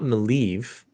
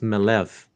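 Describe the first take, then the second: First: The middle vowel is a long ee sound. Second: The middle vowel is a short e sound. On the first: The speaker calls it wrong. "it's not Maleev" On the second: The speaker calls it right. "it's Malev"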